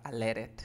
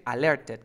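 First: "alerted" coming out as "aleret"; dropped t. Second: "alerted" with a clear hard t; written-form pronunciation. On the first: Teacher tells student to erase the t, so "aleret". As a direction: leave the t out of "alerted" after the r. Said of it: "te va a quedar". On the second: Teacher says what she will give the student, full t. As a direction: sound the t fully in "alerted". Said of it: "yo voy a decir alerted". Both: Shown as a demonstration.

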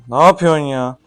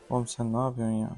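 First: Loud, disbelieving outburst; exasperated shout. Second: Under the breath, exasperated; quiet exasperation. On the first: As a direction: throw it out, fed up. Repeats it, louder. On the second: Frustrated at father's bad move. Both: Real, not acted.

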